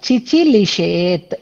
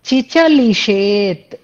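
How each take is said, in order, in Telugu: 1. రెండో అక్షరాన్ని 'i' అచ్చుతో పలుకుతారు. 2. రెండో అక్షరాన్ని 'a' అచ్చుతో పలుకుతారు. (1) "పొరపాటుగా చదివాను" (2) "అనేది పదం"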